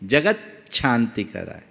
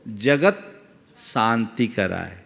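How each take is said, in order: First: Jagat and shanti run together without pause. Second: A short pause separates jagat and shanti. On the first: The sounds are properly joined. "अच्छे से बोलोगे तो निकलेगा" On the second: The sound joining is broken up for ease. "थोड़ा सा gap देना होगा"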